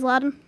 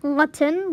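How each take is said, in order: First: "Latin" said LAH-dn; everyday pronunciation. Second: "Latin" with a clear t; "Latin" asked with a hard t; questioned pronunciation. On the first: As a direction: soften the t in "Latin" to a d. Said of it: "I think everyone says Latin". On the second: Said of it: "Do some people say Latin?". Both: Shown as a demonstration.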